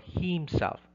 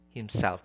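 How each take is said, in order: First: The stress is on the first syllable. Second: The stress is on the second syllable. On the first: The speaker calls it wrong. "It's not myself or himself. No, that's wrong" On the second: The speaker calls it right. "it should be on the self"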